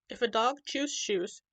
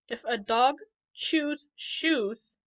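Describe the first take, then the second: First: The sentence is spoken at normal speed. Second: The sentence is spoken slowly. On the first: "let's say it at normal speed" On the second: "I'm going to say it slowly"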